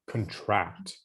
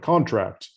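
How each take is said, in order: First: The stress is on the second syllable. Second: The stress is on the first syllable. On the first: It means to shrink or tighten. "the emphasis is on the second syllable" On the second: It is a business agreement. "Are you talking about work and business? That's a different different word"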